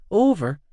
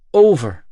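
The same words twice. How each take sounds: First: High, questioning "Over"; puzzled echo. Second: Loud, grim "Over". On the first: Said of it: "puzzled echo of over". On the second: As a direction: land "Over" firmly and heavily. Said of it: "I confirmed grimly". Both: Acted.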